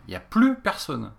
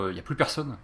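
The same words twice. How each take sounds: First: "plus personne" higher and slower, stress on "plus"; emphatic repeat. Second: Said in the usual way. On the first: Real, not acted. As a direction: lean hard on "plus" in "Y a plus personne". Emphatic repeat of previous line.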